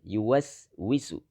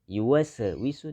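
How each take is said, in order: First: The s is said smoothly without any bounce. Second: The s is released with a bouncing echo. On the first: The speaker calls it right. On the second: The speaker calls it wrong.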